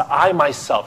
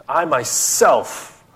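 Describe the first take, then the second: First: Said in the usual way. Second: "I myself" spoken slow, each word leaned on; stress on myself. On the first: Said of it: "that's what the word my". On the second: Acted. Preacher voicing God, slowly stressing "I myself". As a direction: press down hard on "I myself". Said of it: "very emphatic".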